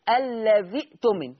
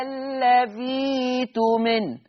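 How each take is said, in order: First: "الذي اؤتمن" with ذي cut short by a glottal stop; hamza sounded. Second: "الذي تؤمن" with a long drawn ee, no glottal stop; slow, higher recitation, gliding "الذي تؤمن" through a held ee; hamza turned to yaa. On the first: Teacher showing the kasra before the hamza, "الذي اؤتمن" caught on a stop. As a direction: join "الذي اؤتمن" on a clear still hamza. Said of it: "مش الذال مكسوره كده". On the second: Teacher showing Warsh's substitution, "الذي تؤمن" held long on ذي. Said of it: "فعشان كده هتبدل ياء". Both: Shown as a demonstration.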